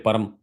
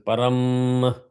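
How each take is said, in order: First: The final M is weak, not bounced. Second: The final M is stressed and bounced. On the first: The speaker calls it wrong. "Don't say param" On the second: The speaker calls it right. "I stress the M at the end because there is a halant"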